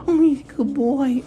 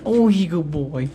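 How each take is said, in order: First: High squeaky dog praise. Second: Squeaky praising a dog. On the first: Praising the dog, higher take. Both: Real, not acted.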